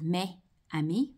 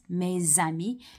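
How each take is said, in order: First: The words are said separately without a linking z. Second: A z sound links mes to amis. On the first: The speaker calls it wrong. "instead of mes amis" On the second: The speaker calls it right. "mes amis is how you would hear it"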